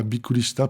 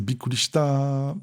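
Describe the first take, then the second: First: Said in the usual way. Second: "shita" with the last "ta" held long; elongated final TA. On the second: Shown as a demonstration. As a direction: stretch out the end of "bikkuri shita". (« shita » avec le « ta » final allongé) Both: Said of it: "il allonge le ta à la fin".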